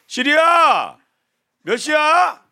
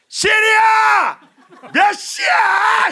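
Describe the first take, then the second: First: It is said louder than normal speech. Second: It is shouted at full, very loud volume.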